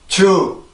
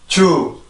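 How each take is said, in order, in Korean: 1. 평평하게 발음되고, 한국식 j 소리가 납니다. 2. 평평하게 발음되고, 한국식 j 소리가 납니다.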